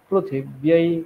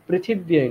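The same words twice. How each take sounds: First: The first syllable is said with a ru sound. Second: The first syllable is said with a ri sound. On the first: The speaker calls it right. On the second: The speaker calls it wrong.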